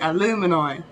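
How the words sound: It is said with an American accent. "America say alumini"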